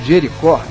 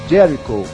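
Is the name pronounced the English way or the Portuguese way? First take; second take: Portuguese; English. First: The name is pronounced the Portuguese way. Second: The name is pronounced the English way.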